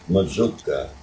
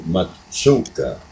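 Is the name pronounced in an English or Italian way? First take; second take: English; Italian. First: The name is pronounced the English way. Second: The name is pronounced the Italian way. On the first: This is the form used in English. "since in English, why the double Z has a different sound, why we go by that" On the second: This is the original Italian form. "In Italian, it's actually Mazzucca"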